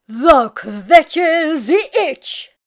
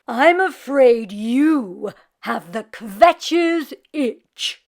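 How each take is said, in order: First: Very slow, louder, each word spelled out; slow repeat. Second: Slow, loud, solemn diagnosis; grave old rabbi voice. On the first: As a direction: repeat it slowly and clearly. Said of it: "repeated the rabbi". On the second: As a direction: deliver bad news like an old rabbi. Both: Acted.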